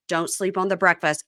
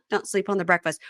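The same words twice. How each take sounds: First: Said in the usual way. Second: Laughing. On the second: Shown as a demonstration. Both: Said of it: "Ah, get it?".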